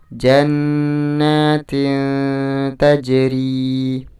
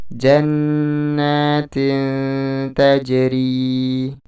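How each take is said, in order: The two takes are said the same way.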